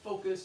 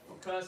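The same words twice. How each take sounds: First: The stress is on the first syllable. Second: The stress is on the second syllable. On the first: The speaker calls it right. "I say focused on the first syllable" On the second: The speaker calls it wrong. "I think you said focused"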